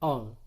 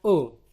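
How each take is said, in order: First: O open and wide, not like u; O with a wider, more open sound. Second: O close and rounded, nearly u; O with a narrow, rounded sound; closed O. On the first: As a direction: say O open, as in pokok. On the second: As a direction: say O tight, as in toko. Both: Shown as a demonstration. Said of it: "Itu enak dibaca O".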